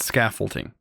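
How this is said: The word has the speaker's regional pronunciation. This is how people say it in one home region. "where I'm from, we call it scaffolding"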